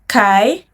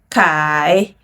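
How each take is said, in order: First: The pitch rises from mid to high. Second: The pitch dips low, then rises.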